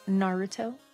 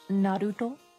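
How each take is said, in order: First: The name is said with English pronunciation. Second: The name is said with Japanese pronunciation. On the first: "not Naruto" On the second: "it's pronounced Naruto"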